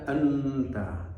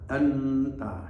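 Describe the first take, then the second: The two takes are said the same way.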